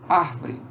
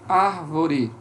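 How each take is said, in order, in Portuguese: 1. A vogal do meio cai, resultando em duas sílabas. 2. A vogal do meio se mantém, resultando em três sílabas.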